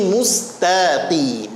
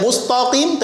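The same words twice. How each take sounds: First: Mustaqim with a light, long "ta"; thin ta. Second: Mustaqim said like "mustoqim"; thickened ta. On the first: Teacher gives the correct reading, ta thin. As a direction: keep "ta" in "mustaqim" thin and drawn out. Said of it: "taknya tipis". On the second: Teacher demonstrates the mistake, ta wrongly thick. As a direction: make the "ta" of "mustaqim" heavy and rounded. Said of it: "Jangan dibaca mustaqim". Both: Shown as a demonstration.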